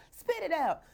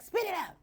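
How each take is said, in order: First: High repeat through a laugh; laughing echo of the order. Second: High, snappy spit it out; mock impatient order; blunt command. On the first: Shown as a demonstration. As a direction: say it again, laughing. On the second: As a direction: bark it out impatiently. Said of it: "I'm like".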